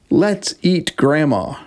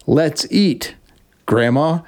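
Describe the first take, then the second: First: "Let's eat grandma" run together with no pause; no comma. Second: A clear pause after "eat" before "grandma."; comma pause. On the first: Reading the t-shirt joke aloud, "Let's eat grandma" with no pause. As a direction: read "Let's eat grandma" straight through, no break before "grandma". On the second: Reading the corrected t-shirt line, pausing at the comma before "grandma.". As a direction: say "Let's eat", stop, then "grandma." as if calling her. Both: Shown as a demonstration. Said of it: "there's a comma added between eat and grandma".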